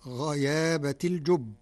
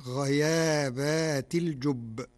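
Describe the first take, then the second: First: "غيابة" with a short ba before the ta; standard singular reading. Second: Slow "غيابات" with a long aa after the ba; Warsh plural reading. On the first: Sheikh quotes the Yusuf phrase before explaining, "غيابة" recited in the singular. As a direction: recite "غيابة الجب" in the singular, short second-last vowel. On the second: Sheikh shows how Warsh reads it, "غيابات" recited slowly as a plural. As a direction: draw out the plural ending of "غيابات". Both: Shown as a demonstration. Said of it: "بالجمع".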